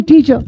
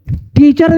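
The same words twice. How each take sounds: First: "टीचर" ending on an open uh, no R; silent final R. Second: "टीचर" with the final R pronounced; sounded final R. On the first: English teacher corrects the word for learners, final R silent. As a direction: say "टीचर" as TEE-chuh. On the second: English teacher shows learners the reading to avoid, R sounded. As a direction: say "टीचर" as TEE-churr, R audible. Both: Shown as a demonstration. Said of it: "टीचर नहीं".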